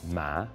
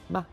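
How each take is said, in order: First: The pitch dips low, then rises. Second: The syllable is short, light and unstressed.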